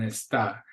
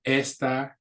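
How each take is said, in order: First: "está" stressed on its final syllable, es-TA; stress on last syllable. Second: "esta" stressed on its first syllable, ES-ta. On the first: Teacher showing the accented verb, "está" stressed es-TA. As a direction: land on the TA in "está", light first syllable. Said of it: "on the A, it's now a verb". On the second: Teacher contrasting look-alike words for students, "esta" stressed ES-ta. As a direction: hit the ES in "esta", let the ta fall. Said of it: "With an accent on the". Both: Shown as a demonstration.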